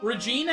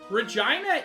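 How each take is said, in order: First: The name is said in its newer pronunciation. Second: The name is said in its older pronunciation. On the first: "Regina is the much newer pronunciation" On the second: "Regina is a much older pronunciation"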